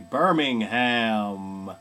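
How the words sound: It is said in an American accent.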